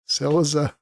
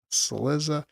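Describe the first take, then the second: First: "Cillizza" stressed on the first syllable, CIL-lizza. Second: "Cillizza" stressed on the second syllable, cil-LIZ-za; softer "Cillizza" with the weight on LIZ. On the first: Host comparing two ways of saying the name, first syllable stressed. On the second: Host comparing two ways of saying the name, second syllable stressed. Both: Shown as a demonstration. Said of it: "where you stress the accent".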